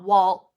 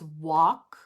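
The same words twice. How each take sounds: First: The L sound is pronounced in the word. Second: The word is said with no L sound. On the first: The speaker calls it wrong. "I heard you still making that L sound in like walk, okay? It's not walk" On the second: The speaker calls it right. "It's walk. ... No L sound"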